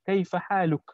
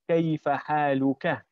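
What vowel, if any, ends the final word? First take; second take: none; a. First: The last word ends on the k sound, no vowel. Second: The last word ends in a short a vowel. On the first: The gender of the person addressed is not specified. "we don't actually say it. We don't specify. We just say" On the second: The person addressed is male. "If you're speaking to a male, you're supposed to say"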